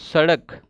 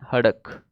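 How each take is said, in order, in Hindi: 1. शब्द की शुरुआत s की आवाज़ से होती है। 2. शब्द की शुरुआत h की आवाज़ से होती है।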